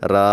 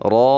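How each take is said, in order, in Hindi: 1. अक्षर का नाम हल्का और पतला बोला जाता है। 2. अक्षर का नाम भारी और भरा हुआ बोला जाता है। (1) "ऐसे नहीं पढ़ेंगे" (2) "रो को मोटा पढ़ेंगे"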